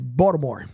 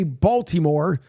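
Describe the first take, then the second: First: It is pronounced the local, clipped way. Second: It is pronounced the standard, non-local way. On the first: The speaker is from the area. The speaker calls it right. "It's the way the locals end up saying it" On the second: The speaker is from outside the area. The speaker calls it wrong. "you don't say Baltimore unless you're from out the area"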